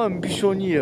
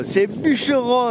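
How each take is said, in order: First: "bûchonnier" said as byʃɔnje, the mangled form; "bûchonnier" deliberately garbled instead of bûcheron; wrong word. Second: "bûcheron" said correctly as byʃəʀɔ̃; "bûcheron" with the clear middle e; correct pronunciation. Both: Shown as a demonstration. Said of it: "vous m'entendez dire".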